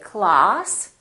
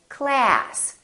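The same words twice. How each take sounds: First: It is said with a British vowel. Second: It is said with an American vowel. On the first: "British people say" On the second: "Americans say"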